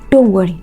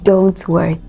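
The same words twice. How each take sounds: First: The final t of don't is left off. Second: The final t of don't is fully pronounced. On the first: The speaker calls it wrong. "So you'd hear something like don't worry" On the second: The speaker calls it right. "No, okay"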